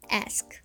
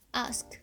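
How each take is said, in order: First: The vowel is a short front a sound. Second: The vowel is a long back ah sound.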